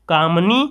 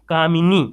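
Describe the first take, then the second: First: कामनी said as kaam-nee, no vowel between m and n, marked as the wrong form; wrong form demo. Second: कामिनी said kaa-mi-nee with a clear short i after m; correct form demo. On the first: Hindi teacher shows students the mistaken spelling: कामनी clipped. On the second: Hindi teacher gives students the correct word: कामिनी in three syllables. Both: Shown as a demonstration. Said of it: "मी शब्द आपको लगाना है कामिनी".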